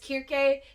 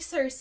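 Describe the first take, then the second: First: The name begins with a hard K sound. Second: The name begins with a soft S sound. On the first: This is the original pronunciation. "I think the original pronunciation is Kirke" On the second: This is the speaker's habitual pronunciation. "I'm saying Circe"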